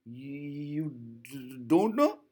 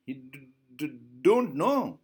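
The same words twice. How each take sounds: First: Father mimicking the stutter, rising at the end; mock the child's stammer as a question. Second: Father mimicking the stutter; mock the child's stammer back at her. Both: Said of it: "He is mimicking".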